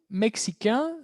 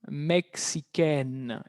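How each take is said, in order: First: "Mexicain" higher, ending on a nasal vowel; masculine French pronunciation. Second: "Mexicaine" very slow and lower, N sounded; released final N. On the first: Teacher recalls the masculine, "Mexicain" with nasal ending. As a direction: keep the N of "Mexicain" unreleased, nasal vowel only. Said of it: "cambia su pronunciación". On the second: Teacher shows the feminine change, "Mexicaine" with released N. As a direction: draw out "Mexicaine" and let the final N ring. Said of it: "el sonido de la N se libera". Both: Shown as a demonstration.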